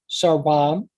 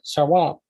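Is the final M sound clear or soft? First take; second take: clear; soft. First: It is said carefully with a full final M. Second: It is said quickly with a soft final M. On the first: "the original pronunciation of this would have been sarwam" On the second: "if you pronounce it quickly, the M sound can be soft"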